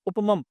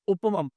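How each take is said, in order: First: The word ends on a bare m sound. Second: The word ends on a bare m sound.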